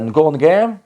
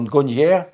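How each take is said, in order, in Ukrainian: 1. Назва закінчується на твердий звук 'ge'. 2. Назва закінчується на пом'якшений звук 'nye'.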